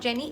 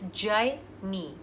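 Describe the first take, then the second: First: The name is said like Jenny. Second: The name is said like Jaini. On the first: The speaker calls it wrong. "It's not Jenny" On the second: The speaker calls it right. "it's Jaini"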